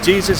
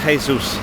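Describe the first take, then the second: First: The name is said with an English pronunciation. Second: The name is said with a Spanish pronunciation. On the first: The speaker calls it wrong. "Jesus is not how you say it in Spanish" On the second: The speaker calls it right. "it's Jesus"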